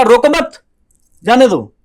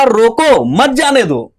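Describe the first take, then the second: First: High, loud रोको मत together, a beat, then जाने दो; रोको मत in one rising burst, pause, जाने दो falling; pause after मत. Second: रोको stretched high and loud, set apart from मत जाने दो; slow, loud रोको as its own command, then मत जाने दो; stress on रोको. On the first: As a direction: bind मत to रोको, break before जाने. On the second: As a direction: call out रोको, then run मत जाने दो together. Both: Shown as a demonstration. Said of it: "अपने tone को ऊपर नीचे किया".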